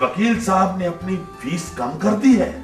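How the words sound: It is said as a question.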